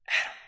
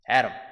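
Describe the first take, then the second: First: It is said softly, as if far away. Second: It is said loudly and clearly.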